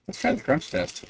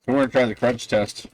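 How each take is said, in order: First: High, soft self-quote; higher quoted take. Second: Said in the usual way. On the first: Retold or imitated. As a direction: lift the voice for the quote. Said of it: "I was like".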